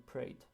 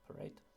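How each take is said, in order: First: The first vowel is dropped, joining p and r. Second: The first vowel is kept as a short schwa.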